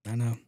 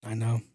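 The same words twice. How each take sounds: The two takes are said the same way.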